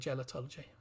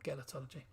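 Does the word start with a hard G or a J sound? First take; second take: J sound; hard G. First: The word begins with a soft J sound. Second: The word begins with a hard G sound. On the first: "it's a J sound for gelotology" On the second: "not gelotology"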